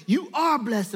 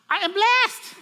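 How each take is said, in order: First: Lightly raised, emphatic reply; father's affirmation. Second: Put-on high, loud little-kid squeal; four-year-old girl. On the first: Retold or imitated. Dad affirms his little daughter with a high five, emphatic reply. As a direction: answer back with stress on "are". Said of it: "And then I go". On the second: Little daughter declares it to dad, high loud child voice. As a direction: imitate a tiny child proclaiming. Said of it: "four years old, she goes".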